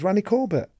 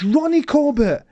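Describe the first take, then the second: First: The first vowel sounds like the a in ran. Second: The first vowel sounds like the o in ron. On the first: The speaker calls it wrong. "How he pronounced it, R-A-N-N-Y" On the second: The speaker calls it right. "it's Ronnie Corbett"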